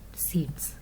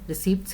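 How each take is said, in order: First: The p sound is silent in the word. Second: The p sound is pronounced in the word. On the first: The speaker calls it right. "P यहाँ पे आपने silent करना है" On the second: The speaker calls it wrong. "Many students they are saying receipts here"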